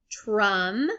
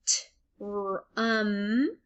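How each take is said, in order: First: Said in the usual way. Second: "Tr-, um" with T, R and UM apart; sound by sound. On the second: Shown as a demonstration. Teacher sounding out for learners, "Tr-, um" piece by piece. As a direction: pause between the sounds of "Tr-, um". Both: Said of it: "saying all the sounds individually".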